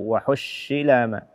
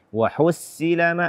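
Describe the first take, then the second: First: The s-sound is a sh sound. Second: The s-sound is a plain, thin s. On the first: "atau shin" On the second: "Mengganti sad dengan sin"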